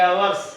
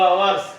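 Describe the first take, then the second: No difference in how they are said.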